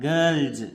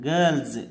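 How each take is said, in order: Both takes have the same delivery.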